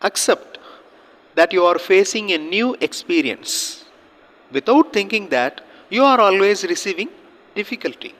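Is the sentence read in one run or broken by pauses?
pauses. The sentence is read with pauses between phrases. Listeners can understand it. The speaker calls it right. "So இந்த மாதிரி pass பண்ணி read பண்ணணும்"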